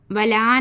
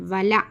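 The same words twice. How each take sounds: First: "वला" with a long final "aa"; wrong long vowel. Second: "वला" with a short final "a"; short vowel. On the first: Teacher warning pupils off a misreading, वला stretched long. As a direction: drag out the end of "वला" as "valaaa". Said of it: "वला नहीं पढ़ना". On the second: Teacher giving the correct reading, वला kept short. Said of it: "सिर्फ वला पढ़ना". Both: Shown as a demonstration.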